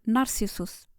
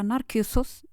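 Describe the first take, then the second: First: The name is said with an 's' sound. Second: The name is said with a 'k' sound.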